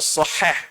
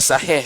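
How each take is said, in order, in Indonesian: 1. Kata sahih diucapkan dengan hati-hati dan tepat. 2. Kata sahih diucapkan asal-asalan, tanpa hati-hati. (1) "kena pronounce betul ya" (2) "bukan sahih ke apa dah"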